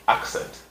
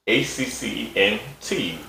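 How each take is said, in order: First: Said in the usual way. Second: "A C C E N T" spelled one letter at a time. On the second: Shown as a demonstration. Host spelling the topic word out for viewers, letter by letter.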